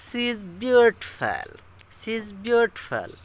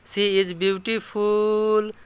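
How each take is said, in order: First: "She is" linked to "shiz", "beautiful" clipped to "byootpel", slow British model; slow British-style reading with words run together; British English. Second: "She is" said apart, "beautiful" as "bootiful", slow; slow Indian English reading, each word separate. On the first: Teacher showing how British people say it, slow. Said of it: "जैसे British लोग बोलते हैं ऐसे कहेंगे". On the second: Teacher contrasting Indian English pronunciation, slow. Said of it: "अपना Indian English बोलेंगे तो बोलेंगे". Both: Shown as a demonstration.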